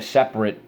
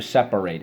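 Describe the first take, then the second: First: "separate" ending in a short unstressed -rit, like the adjective; wrong pronunciation. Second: "separate" with a full -ate ending; verb pronunciation. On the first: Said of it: "You don't say". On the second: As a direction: say "separate" as SEP-a-rate, rhyming with late. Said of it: "You're going to separate it". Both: Shown as a demonstration.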